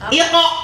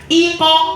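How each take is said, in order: First: The syllable is said quickly and crisply. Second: The syllable is said slowly and drawn out. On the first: The speaker calls it right. "Jadi cepat" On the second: The speaker calls it wrong. "Bukan iko, bukan begitu"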